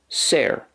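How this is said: The vowel sounds like the 'ai' in 'air'. "that's the way it's pronounced, generally speaking, in Munster"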